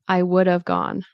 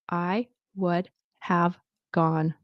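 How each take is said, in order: First: 'Have' is reduced so it sounds like of. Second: Each word is said slowly and fully. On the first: "it kind of sounds like of" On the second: "Very careful, very slow"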